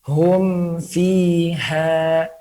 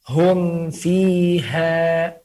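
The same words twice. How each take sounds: No difference in how they are said.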